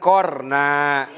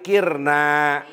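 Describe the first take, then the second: First: The first consonant takes an 'a' vowel. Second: The first consonant takes an 'i' vowel. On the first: "Bisa dipatahkan jadi korna" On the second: "Kopnya bisa dikasrohkan jadi kirna"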